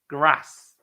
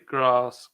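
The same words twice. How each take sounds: First: It is said in a northern English accent. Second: It is said in a southern English accent. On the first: "they say like bath, castle, grass" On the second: "Or we say grass"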